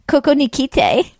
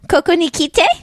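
First: It is said in a plainer voice. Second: It is said in a cuter voice.

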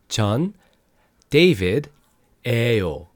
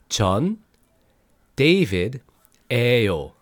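No difference in how they are said.

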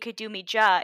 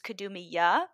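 First: The J is sounded like the English J. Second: The J is sounded like the English Y. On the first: The speaker calls it wrong. "instead of it being Kadumi Ja" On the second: The speaker calls it right. "the J in the Croatian alphabet is pronounced like a Y"

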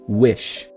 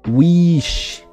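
First: The vowel is an open sound close to eh. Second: The vowel is a closed, tense ee sound. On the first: The speaker calls it right. "eu estou falando wish, ... é o izão grandão ... quase um som de E" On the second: The speaker calls it wrong. "não tô falando aqui wish"

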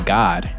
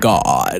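First: It is said in a plain, ordinary voice. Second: It is said in a pompous, educated-sounding voice.

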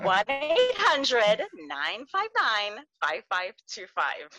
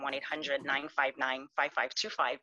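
First: The number is said more slowly. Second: The number is said at normal speed.

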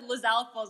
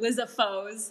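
First: An L sound comes before the F. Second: There is no L sound before the F. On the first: The speaker calls it right. "my friend said Lizalfo's" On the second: The speaker calls it wrong. "I would pronounce them Lizafo's"

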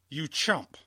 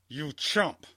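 Both takes have the same delivery.

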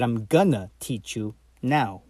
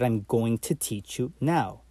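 First: 'Going to' is reduced to 'gonna'. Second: 'Going to' is said in full.

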